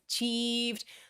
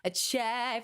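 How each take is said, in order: First: The stressed vowel sounds like ee. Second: The stressed vowel sounds like ay. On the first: "E is a closed vowel, ... when your mouth is small" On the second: "you want to just get your mouth open as much"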